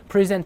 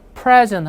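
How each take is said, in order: First: The stress is on the second syllable. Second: The stress is on the first syllable. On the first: It is a verb meaning to give. "뒤를 세게 읽으면 pre에서 강세가 빠지니까" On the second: It is a noun meaning a gift. "앞을 세게 읽으면 명사나 형용사입니다"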